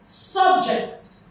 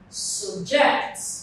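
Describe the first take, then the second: First: The stress is on the first syllable. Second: The stress is on the second syllable. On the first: It names a school course or topic. "For nouns and adjectives, the stress falls on the first syllable" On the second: It means to force someone under control. "for verbs, the stress falls on the second syllable"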